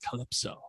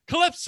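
First: The word is said softly and quietly. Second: The word is shouted loudly. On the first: The speaker calls it right. "he like goes into her ear" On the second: The speaker calls it wrong. "Barboza just shouts it out"

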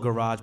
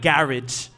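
First: Garage is said with an American pronunciation. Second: Garage is said with a British, London pronunciation. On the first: This is how the speaker's own community says it. "We call it garage" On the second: This is how people in London say it. "I was in London, so they call it garage"

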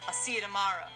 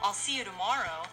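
First: The vowel in tomorrow drifts toward schwa. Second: The vowel in tomorrow is full.

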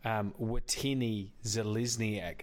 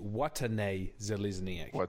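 First: The first name is said the anglicised way. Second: The first name is said the native way. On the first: The speaker calls it wrong. "I still take real offence to" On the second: The speaker calls it right. "It's actually"

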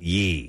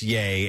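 First: The vowel rhymes with 'see'. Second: The vowel rhymes with 'day'. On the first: The speaker calls it wrong. "not ye" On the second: The speaker calls it right. "Is pronounced yay as in [name]"

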